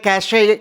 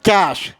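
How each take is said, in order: First: It has two syllables, ending in an extra vowel. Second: It has one syllable, ending in 'sh'. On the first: The speaker calls it wrong. "तो लोग इसे बोलते हैं कैशे" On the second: The speaker calls it right. "जिसे बोलते हैं कैश"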